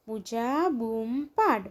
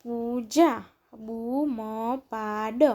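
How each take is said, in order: First: Said in the usual way. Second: પૂજા, બૂમ પાડ with each syllable held. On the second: Shown as a demonstration. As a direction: sound out પૂજા, બૂમ પાડ, pausing between words. Syllable-by-syllable reading, then blended words.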